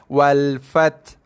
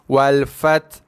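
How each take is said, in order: No difference in how they are said.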